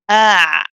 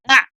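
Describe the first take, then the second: First: The sound is held for a medium length. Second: The sound is cut off very quickly. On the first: The speaker calls it right. "It's not too long, not too short kind of a letter" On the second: The speaker calls it wrong. "we don't say ah and just stop all of a sudden"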